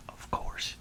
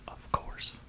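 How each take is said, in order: Both takes have the same delivery.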